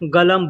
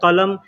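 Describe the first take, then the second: First: The word begins with a g sound. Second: The word begins with a k sound. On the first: This is how people say it in speech. "बोलने के लिए लोग गलम बोलते हैं" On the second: This is how the word is written. "वैसे लिखा जाता है कलम"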